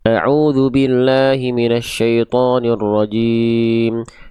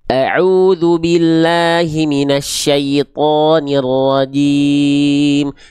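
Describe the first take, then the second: First: The vowels are blurred, like mumbling. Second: The vowels are full and clearly articulated. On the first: The speaker calls it wrong. "seperti orang yang sedang kumur-kumur atau seperti bergumam" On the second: The speaker calls it right. "Karena disempurnakan itmamul harokatnya"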